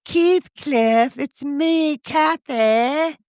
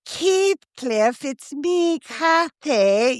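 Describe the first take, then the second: First: High mock Aussie actress voice; strong Aussie accent, pitched up; Australian accent. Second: Imitating a high Aussie actress voice; mock Aussie Kathy line; Australian accent. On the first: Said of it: "the strong Aussie accent". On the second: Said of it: "you know that Kiwi accent".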